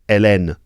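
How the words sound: The name is said with French pronunciation. "in French it's"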